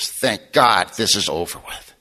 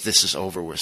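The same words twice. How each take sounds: First: Slow, drawn-out THANK GOD with relief; relieved emphasis. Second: Said in the usual way. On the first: Retold or imitated. Man recalling his most peaceful moment, slow heartfelt relief. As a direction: lean long on "Thank God", then fall away.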